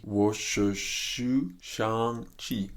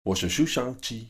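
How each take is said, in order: First: "我是徐尚气" stretched out very slowly; slow practice. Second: Said in the usual way. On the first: Shown as a demonstration. Practising a line from the film, slow practice. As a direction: draw out each syllable of "我是徐尚气".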